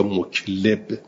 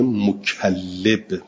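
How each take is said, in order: First: Muklib with no doubled L; single lam in muklib. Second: Mukallib with the L geminated; doubled lam in mukallib. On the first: Teacher contrasting two readings for students, muklib with undoubled L. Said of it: "بدون تشدید". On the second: Teacher contrasting two readings for students, mukallib with doubled L. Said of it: "با تشدید". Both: Shown as a demonstration.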